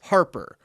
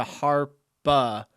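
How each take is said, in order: First: "Harper" with both r's sounded; American pronunciation. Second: "Harpa" slow, ending in an open "bah"; Australian-style pronunciation. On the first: Reading out a comment on the dog's name, "Harper" with clear r's. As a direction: say "Harper" the American way, ending "-per". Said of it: "My husband's American and I'm Aussie". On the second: Reading out what the dog answers to, "Harpa" slowly ending in "ah". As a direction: say "Harpa" slowly, dropping the final r. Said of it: "She only comes to Harpa". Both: Shown as a demonstration.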